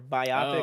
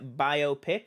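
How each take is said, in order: First: The stress is on the second syllable. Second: The stress is on the first syllable.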